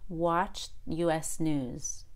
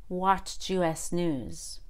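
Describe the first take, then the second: Both takes have the same delivery.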